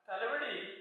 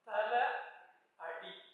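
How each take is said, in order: First: It is said as one word with a v sound. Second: It is said as two words, thala and adi. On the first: This is how the name is said today. The speaker calls it wrong. "ഇന്നിപ്പോ ഉച്ചരിക്കുന്നത് പോലെ തലവടിയല്ല" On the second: This is the original form meaning head or gateway. The speaker calls it right. "പിന്നെയോ തല അടി"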